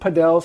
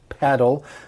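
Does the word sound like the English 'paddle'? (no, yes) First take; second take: no; yes. First: It does not sound like the word paddle. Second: It sounds just like the word paddle. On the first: "some people pronounce it padel" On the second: "paddle reminds me of an object that you might use maybe for rowing a boat"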